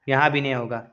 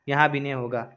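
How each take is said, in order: No difference in how they are said.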